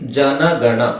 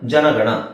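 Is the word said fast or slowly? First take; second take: slowly; fast. First: It is said slowly, syllables kept apart. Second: It is said fast, syllables run together. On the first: "ನಿಧಾನ" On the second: "ಸ್ವಲ್ಪ fast ಆಗಿ ಹೇಳಿದಾಗ"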